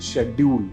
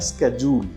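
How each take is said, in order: First: It is said in a British accent. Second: It is said in an American accent. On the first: "British pronunciation की बात करूं वो है" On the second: "American pronunciation इसका है"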